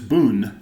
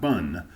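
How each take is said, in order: First: The vowel is an 'oo' sound. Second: The vowel is an 'uh' sound. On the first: The speaker calls it right. "it's bun" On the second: The speaker calls it wrong. "not bun"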